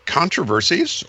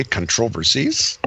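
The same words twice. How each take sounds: First: Said in the usual way. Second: "controversies" stressed on the second syllable, con-TROV-ersies; British pronunciation. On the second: Shown as a demonstration. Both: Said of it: "or as the Brits would say".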